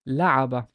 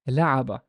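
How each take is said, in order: No difference in how they are said.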